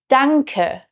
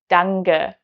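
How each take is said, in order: First: The k sound is hard and crisp. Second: The k sound is softened toward g. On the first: This is standard German. "harsh sounds like p, k, or t" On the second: This is the Hessian dialect. "become the softer version of it"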